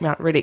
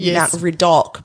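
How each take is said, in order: First: The last syllable has a short, reduced vowel. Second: The last syllable has a full, clear vowel. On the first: This is how locals casually say it. The speaker calls it wrong. "but you like say it Mount Riddick" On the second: This is the name's proper pronunciation. The speaker calls it right. "actually Mount Riddick is Mount Riddock"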